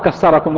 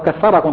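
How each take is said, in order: First: The middle consonant is pronounced as an s sound. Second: The middle consonant is pronounced as a th sound. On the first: It means may God break you. The speaker calls it wrong. "هذه اللهجة المصرية الشخص الثاء تنطق سين" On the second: It means may God multiply you. The speaker calls it right. "قل كثركم طبعا"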